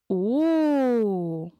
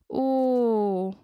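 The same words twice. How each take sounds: First: The O sounds amazed and astonished. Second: The O sounds regretful and sorry. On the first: The speaker is astonished. "ob der Sprecher staunt" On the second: The speaker feels regret. "oder Bedauern ausdrückt"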